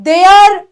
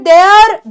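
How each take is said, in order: Both takes have the same delivery.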